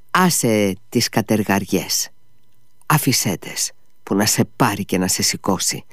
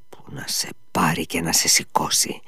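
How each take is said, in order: First: A touch of anger, held in; mild angry outburst at the servant; angry exclamation. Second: Low, softer, grim muttering; muttered curse. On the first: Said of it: "αναφώνησε θυμωμένος". (θυμωμένο ξέσπασμα, συγκρατημένο) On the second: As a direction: curse it under the breath. Ivan curses again, subdued. (σιγανή, βαριά κατάρα) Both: A narrator's reading.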